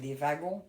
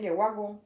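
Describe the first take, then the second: First: The word begins with a V sound. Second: The word begins with a W sound. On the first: This is how people from the speaker's own region say it. "Nous, on dit les wagons" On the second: This is how people from another region say it. "C'est un W, on dit pas un V"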